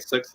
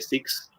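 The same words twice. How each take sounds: First: The vowel is a short 'ih' sound. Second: The vowel sounds close to an 'ee' sound. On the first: "instead of saying six" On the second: "they pronounce the I as like an E"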